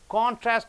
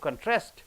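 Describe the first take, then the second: First: The stress is on the first syllable. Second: The stress is on the last syllable. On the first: It is used as a noun. "first syllable if you stress" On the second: It is used as a verb. "last syllable if you stress"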